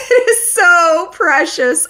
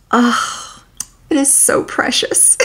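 First: High, slow squeal of delight; squealing gush. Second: Soft unvoiced whisper of delight; whispered gush. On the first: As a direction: squeal it out adoringly. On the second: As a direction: breathe it like a secret treasure. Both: Real, not acted. Gushing over fictional friendship.

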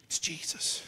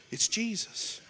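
First: Unvoiced whispered "It's Jesus". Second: Said in the usual way. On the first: Real, not acted. Preacher whispering to young people. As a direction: breathe the name as a secret.

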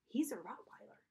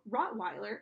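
First: Stunned. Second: Said in the usual way. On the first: A narrator's reading. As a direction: say it in dumbstruck disbelief. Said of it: "My jaw hung open". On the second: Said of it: "he was obviously a purebred".

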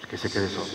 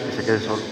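First: Much softer, almost under the breath; quiet. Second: Said in the usual way. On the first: Shown as a demonstration. Preacher repeats it softly to the congregation, quiet. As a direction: let it sink in softly. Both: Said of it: "repeats phrase, second time hushed".

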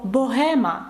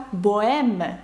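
First: Said in the usual way. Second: "боеме" as bo-EM with no h; French "боеме", stressed at the end; French silent H. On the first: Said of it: "дам вам слово". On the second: Shown as a demonstration. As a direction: glide from o to e in "боеме". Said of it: "Французькою воно пишеться".

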